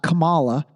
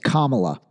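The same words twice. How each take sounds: First: The name does not start like 'comma'. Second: The name starts like 'comma', then 'la'. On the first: The speaker calls it wrong. "So it's not Kamala" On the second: The speaker calls it right. "but it's Kamala"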